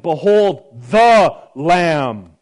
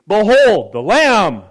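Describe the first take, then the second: First: The word 'the' is stressed. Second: The word 'the' is passed over quickly.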